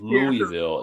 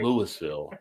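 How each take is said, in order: First: The S sound in the middle is silent. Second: The S sound in the middle is pronounced. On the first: The speaker calls it right. "tell Shantae it's" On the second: The speaker calls it wrong. "It's not"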